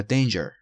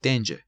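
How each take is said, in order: First: Danger with a sounded R at the end; rhotic, American-style danger; pronounced final R. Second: Danger said British-style as "DAYN-juh"; non-rhotic danger; silent final R. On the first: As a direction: say danger as "DAYN-jer". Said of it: "یا danger". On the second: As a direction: end danger on a vowel, no R. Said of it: "حرف صدادار باشه تلفظ نمیشه". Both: Shown as a demonstration.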